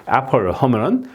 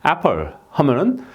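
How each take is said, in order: No difference in how they are said.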